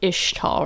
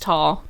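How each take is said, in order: First: The word begins with an "ish" sound. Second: The word has an "x" sound in the middle. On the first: The speaker calls it right. "Like Ish" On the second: The speaker calls it wrong. "but we don't say the X"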